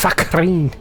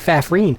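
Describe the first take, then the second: First: The middle consonant is a K sound. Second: The middle consonant is an F sound. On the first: The speaker calls it right. "but it's Fakreen" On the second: The speaker calls it wrong. "It looks like Fafreen"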